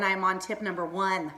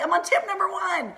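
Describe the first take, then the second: First: Said in the usual way. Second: High-pitched, laughing excitement; fired up. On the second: Real, not acted. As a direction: exclaim it high, breaking into a laugh. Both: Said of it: "I'm getting fired up already".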